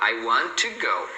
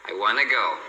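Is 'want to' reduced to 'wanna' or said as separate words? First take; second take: separate; reduced. First: Want and to are said as separate words. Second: Want to is reduced to wanna. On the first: "se você fosse falar as palavras separadas" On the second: "ela reduz ainda mais"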